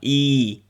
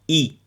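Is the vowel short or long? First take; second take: long; short. First: The vowel is drawn out long. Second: The vowel is short. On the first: The speaker calls it wrong. "ils n'ont pas i" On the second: The speaker calls it right. "Hamza kasra i"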